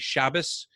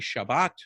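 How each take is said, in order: First: The word ends in an s sound. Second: The word ends in a t sound.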